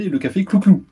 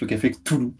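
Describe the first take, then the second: First: The name is said as Clouclou. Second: The name is said as Cthulhu. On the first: This is how the neighbourhood residents say it. "les habitants du quartier ont tendance à le prononcer le café Clouclou" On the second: This is how the staff and regulars say it. "les employés et les habitués prononcent le café Cthulhu"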